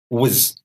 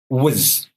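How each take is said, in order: No difference in how they are said.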